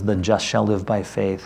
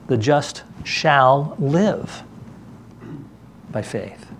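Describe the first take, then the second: First: The stress is on "just". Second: The stress is on "live".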